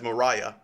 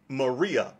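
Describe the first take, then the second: First: The middle syllable sounds like 'rye'. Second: The middle syllable sounds like 'ree'. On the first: The speaker calls it right. "it's actually pronounced as Mariah" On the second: The speaker calls it wrong. "you might have heard of her as Maria Woodworth-Etter. And that's not really how you say her name"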